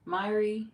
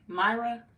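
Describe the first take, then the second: First: Myri ending in an ee sound; trying a pronunciation. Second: Myra ending in an uh sound; trying a pronunciation. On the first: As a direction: say Myri as MY-ree. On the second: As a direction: say Myra as MY-ruh. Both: Shown as a demonstration. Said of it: "How you pronounce your name".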